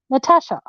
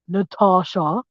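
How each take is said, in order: First: The name is said in an Australian way. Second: The name is said in a non-Australian way. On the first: The speaker is Australian. The speaker calls it right. "Over here in Australia, we say Natasha" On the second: The speaker is not Australian. The speaker calls it wrong. "Over here in Australia, we don't say Natasha"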